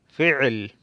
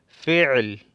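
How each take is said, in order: First: The word has a throaty sound in the middle. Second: The same.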